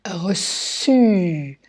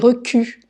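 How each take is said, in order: First: The middle consonant is an s sound. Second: The middle consonant is a k sound. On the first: The speaker calls it right. "la cédille, ça permet de faire reçu" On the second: The speaker calls it wrong. "Si j'enlève la cédille, ça fait recu"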